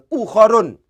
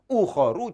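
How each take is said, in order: First: The word ends with an added n sound. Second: The word ends on a vowel without n. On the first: The speaker calls it wrong. "jangan ukhorun" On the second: The speaker calls it right. "cara bacanya tidak boleh ditanwin, sehingga bacanya adalah ukhoru"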